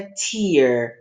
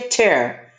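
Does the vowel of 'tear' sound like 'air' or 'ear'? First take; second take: ear; air. First: The vowel sounds like the word 'ear'. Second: The vowel sounds like the word 'air'. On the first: It means a drop from crying. "só que o som é tear" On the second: It means to pull or rip down. "aqui é tear"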